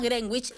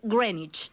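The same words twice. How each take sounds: First: The name is read out the Spanish way. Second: The name is said the English way. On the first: The speaker calls it wrong. "no digan más Greenwich" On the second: The speaker calls it right. "es Greenwich"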